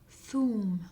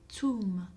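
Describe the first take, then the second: First: The word begins with a soft th sound. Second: The word begins with a hard t sound. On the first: This is the form used outside Oran. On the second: This is the form used in Oran.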